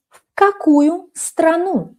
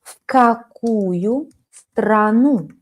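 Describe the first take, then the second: First: В какую страну raised high; high model question. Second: Very slow В какую страну; slow model question. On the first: Teacher models В какую страну high. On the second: Teacher models the question very slowly. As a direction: draw out every word slowly. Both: Shown as a demonstration. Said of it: "Silent move".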